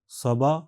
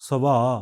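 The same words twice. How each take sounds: First: The final vowel is ordinary length. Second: The final vowel is held extra long. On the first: "साधारण" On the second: "extra long vowel"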